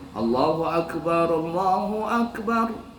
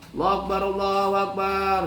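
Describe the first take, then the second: First: It is steady and firm with breathing pauses. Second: It is rushed together without breathing pauses. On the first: The speaker calls it right. "harus mantap. ... Bernapas" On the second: The speaker calls it wrong. "Itu salah lagi. Nggak ada titik komanya"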